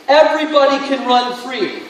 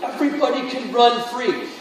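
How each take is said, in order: First: Louder, higher repeat. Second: Said in the usual way. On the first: Shown as a demonstration. Preacher repeating to the congregation, now louder and higher. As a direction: push it out louder the second time, higher and stronger.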